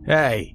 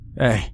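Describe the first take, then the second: First: It is said firmly with authority. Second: It is said weakly and timidly.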